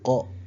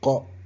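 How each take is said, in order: The two takes are said the same way.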